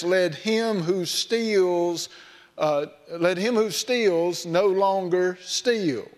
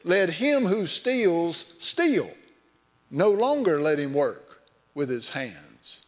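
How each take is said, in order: First: Slow reading, "no longer" joined to "steal"; correct reading. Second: Slow, "steals steal" run together with the stress on the final "steal"; mistaken reading. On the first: Pastor quoting Ephesians, slow, careful correct phrasing. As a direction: read it slowly, the pause falls after "steals". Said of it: "in the book of Ephesians where it says". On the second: Mock misreading of the verse, slow and deliberate. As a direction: make it "Let him who steals steal", stop, then "No longer let him work". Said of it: "they interpret that as this". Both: Shown as a demonstration.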